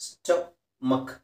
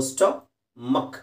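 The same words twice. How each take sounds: First: ಸ್ಟಮಕ್ very slowly, ending muk; ಸ್ಟಮಕ್ drawn out, no mack sound; pron. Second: ಸ್ಟಮಕ್ said very slowly, stuh-muk; ಸ್ಟಮಕ್ drawn out, ending muk not mack; pron. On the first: Teacher stretches ಸ್ಟಮಕ್ again, slowly and clearly. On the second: Teacher stretches ಸ್ಟಮಕ್ slowly for the class. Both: Shown as a demonstration. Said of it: "ಮ್ಯಾಕ್ ಅಂತ ಓದೋಂಗಿಲ್ಲ".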